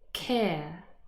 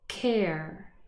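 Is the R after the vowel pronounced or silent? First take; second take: silent; pronounced. First: The R after the vowel is silent. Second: The R after the vowel is pronounced. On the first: "the non-rhotic pronunciation" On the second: "the rhotic pronunciation"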